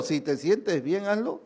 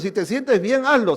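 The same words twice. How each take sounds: First: Coaxing tempter. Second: Tempting voice, loud. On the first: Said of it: "yo sé de qué espíritu viene". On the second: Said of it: "ese pensamiento ... de qué espíritu viene". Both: Retold or imitated.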